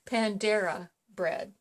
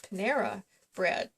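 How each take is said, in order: First: The name is said with an added d sound. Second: The name is said without any d sound. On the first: The speaker calls it wrong. "he wants to always pronounce it Pandera" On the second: The speaker calls it right. "no, it's Panera bread"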